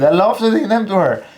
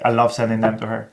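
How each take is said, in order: First: It is said playfully, with emphasis. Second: It is said flatly, on autopilot.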